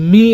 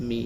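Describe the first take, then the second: First: Me hit hard and louder; wrongly stressed ME. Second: Said in the usual way. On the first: Shown as a demonstration. Teacher showing the stress to avoid, loud me. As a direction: punch the word me. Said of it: "me বলি নাই". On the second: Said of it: "me যখন বলছি, তখন কিন্তু বলি নাই".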